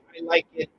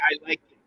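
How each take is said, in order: First: The final T is fully released. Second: The final T is stopped without release. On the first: The speaker calls it wrong. "We don't say I like it" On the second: The speaker calls it right. "and the sound stops"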